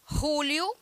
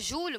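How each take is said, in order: First: The name is said with a Spanish pronunciation. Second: The name is said with a Portuguese pronunciation. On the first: "com essa pronúncia" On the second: "que para nós aqui seria Júlio"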